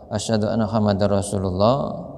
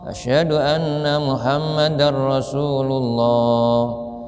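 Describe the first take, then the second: First: It is said quietly, in a low voice. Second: It is said loudly, in a raised voice. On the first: "itu agak pelan" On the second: "Jadi baru dikeraskan"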